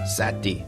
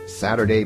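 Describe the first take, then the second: First: Syllables are dropped and the word is shortened. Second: All syllables of the word are said.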